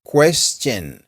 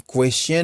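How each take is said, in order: First: "Question" as "kwes-chun", with a clear ch after the s; "Question" said carefully in two distinct syllables, kwes-chun; correct pronunciation. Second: "question" mispronounced as a learner might, t dropped; wrong pronunciation. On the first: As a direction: model "Question" carefully, s then ch. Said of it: "Fais attention à ça". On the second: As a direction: say "question" without the ch sound after the s. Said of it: "Pas dire question, non". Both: Shown as a demonstration.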